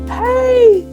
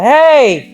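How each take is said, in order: First: It is a thin call from the throat and nose. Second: It is a full call from the diaphragm.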